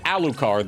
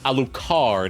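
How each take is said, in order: First: The stress is not on the last syllable. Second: The stress is on the last syllable. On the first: "they don't pronounce it Alucard" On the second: "as if he's Francais. ... the emphasis upon the second syllable. Or third, rather"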